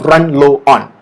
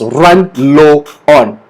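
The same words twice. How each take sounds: First: The words are linked smoothly at normal speed. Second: The words are said slowly and separately. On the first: "So connected together become" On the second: "say it slowly first"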